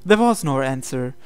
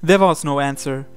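The two takes are said the same way.

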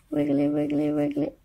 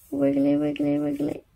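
Both takes have the same delivery.

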